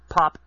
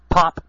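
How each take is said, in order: First: The P sounds soft, without a popping burst. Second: The P makes a loud popping burst. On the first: The speaker calls it right. "Talk at it, like, from the side. Like this" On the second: The speaker calls it wrong. "if I do it on the end, pointing toward the microphone, of course I'm going to pop my peas"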